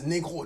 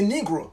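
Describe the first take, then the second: First: The word is said with French pronunciation. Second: The word is said with English pronunciation. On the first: "in French, the proper pronunciation is negro" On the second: "In English, we say negro"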